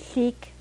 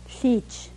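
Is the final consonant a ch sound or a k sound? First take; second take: k; ch. First: The word ends with a k sound. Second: The word ends with a ch sound. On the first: This is the speaker's own dialect form. "I would say cheek for dog" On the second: This is the Upper Koyukon dialect form. "they'd say cheech"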